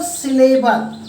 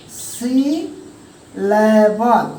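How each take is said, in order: First: Said in the usual way. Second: सिलेबल pulled apart slowly as सि, ले-बल; broken into syllables. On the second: Shown as a demonstration. Teacher showing students what a syllable is, सिलेबल slowly broken apart. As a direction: say सिलेबल very slowly, with a clear break after सि. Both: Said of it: "उसे हम वर्डों में तोड़ते हैं".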